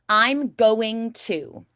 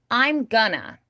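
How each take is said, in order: First: Each word is said fully and carefully. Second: It is reduced casually to gonna.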